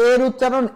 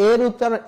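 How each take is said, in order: The two takes are said the same way.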